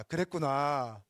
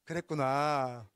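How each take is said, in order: First: Slow, steady "그랬구나" with a falling end; gentle understanding; calm acknowledgment. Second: "그랬구나" drawn out very slowly, falling; unhurried, settling repeat; slow calm acknowledgment. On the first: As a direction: say "그랬구나" calmly, letting it fall. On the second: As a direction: stretch "그랬구나" out soothingly. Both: Shown as a demonstration. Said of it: "자".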